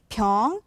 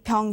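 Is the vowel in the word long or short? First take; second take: long; short. First: The vowel is held long. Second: The vowel is kept short. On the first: It means sickness or illness. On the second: It means a bottle.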